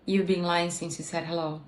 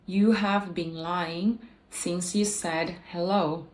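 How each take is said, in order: First: "You have" is contracted and the words link together. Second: "You have" is said as two full words.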